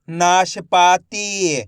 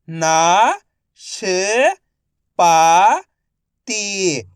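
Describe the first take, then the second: First: Said in the usual way. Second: नाशपाती drawn out slowly, ना-श-पा-ती; slow syllable by syllable. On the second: Shown as a demonstration. (धीरे-धीरे अक्षर-अक्षर बोलें)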